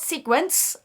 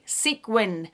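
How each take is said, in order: First: The word ends with an added s sound. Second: The word ends with a plain n sound. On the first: The speaker calls it wrong. "as I say with my accent and get corrected in the comment box" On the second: The speaker calls it right. "it's fully sequin"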